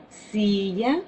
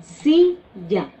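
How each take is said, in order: First: Said in the usual way. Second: "silla" with a louder, falling first syllable SI; stress on first syllable. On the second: Shown as a demonstration. Teacher stressing the first syllable of "silla" for students. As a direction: punch SI in "silla" and drop. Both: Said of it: "Que vemos es cama".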